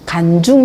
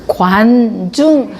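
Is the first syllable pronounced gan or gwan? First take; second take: gan; gwan. First: The first syllable is said as plain gan. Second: The first syllable is said as rounded gwan. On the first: The speaker calls it wrong. "간중 이러면 안 되죠" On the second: The speaker calls it right. "입모양부터 혀모양부터 막 꼬고 막 이 관중 이러잖아요"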